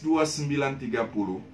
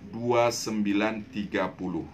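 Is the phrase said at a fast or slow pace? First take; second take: fast; slow. First: The phrase is said at normal speed. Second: The phrase is said slowly and deliberately.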